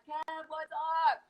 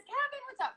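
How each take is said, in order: First: Said in the usual way. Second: High, sing-song hello to a viewer; bright greeting. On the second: Real, not acted. Host greets viewer Kevin warmly, high sing-song hello. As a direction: call out a cheery welcome.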